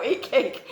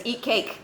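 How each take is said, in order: First: Laughing out the words, higher. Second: Light chuckle through the quote; quoting with a laugh. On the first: Real, not acted. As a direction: giggle through the repeated joke. Repeats quote, laughing at it. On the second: Retold or imitated. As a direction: quote it amused, half-laughing. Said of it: "like Kat Kerr says".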